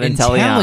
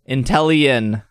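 First: The ending does not sound like chameleon. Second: The ending sounds like the end of chameleon. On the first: The speaker calls it wrong. "not Inteleon" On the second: The speaker calls it right. "It's Inteleon, like chameleon"

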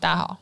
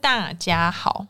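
First: The syllables are said quickly and run together. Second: Each syllable is said fully and clearly.

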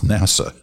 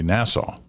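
First: It is not said like the island Nassau. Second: It is said like the island Nassau. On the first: The speaker calls it right. "it's NASA" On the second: The speaker calls it wrong. "like the island"

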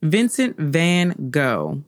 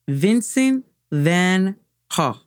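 First: The name is said with an American pronunciation. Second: The name is said with a Dutch pronunciation.

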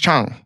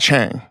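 First: The name is said with a Korean pronunciation. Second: The name is said with an English pronunciation. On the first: The speaker calls it right. "It's Chang. My parents have never said Chang" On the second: The speaker calls it wrong. "It's not Chang"

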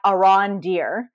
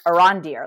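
First: Each syllable is said separately, with breaks. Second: The syllables run together as one word. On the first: The speaker calls it wrong. "you say it as like three separate syllables" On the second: The speaker calls it right. "like it's one word"

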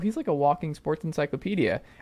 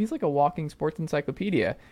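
First: The tone sounds impressed and admiring. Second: The same.

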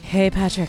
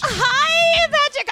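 First: It is said quieter and lower pitched. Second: It is said loudly and high pitched.

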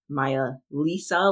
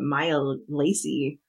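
First: The second word is pronounced like the name Lisa. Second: The second word is pronounced like the name Lacey. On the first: This is how the term sounds in the audio version. "it literally sounds like Maya Lisa, like the name Lisa" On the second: This is how the term was imagined while reading. "I've been calling it Maya Lacey"

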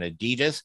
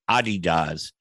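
First: The name is said the usual English way. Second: The name is said the German way. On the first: The speaker calls it wrong. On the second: The speaker calls it right.

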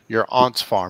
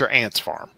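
First: Aunt is said with a British-style vowel. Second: Aunt is said with a non-British vowel. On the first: The speaker calls it right. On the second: The speaker calls it wrong.

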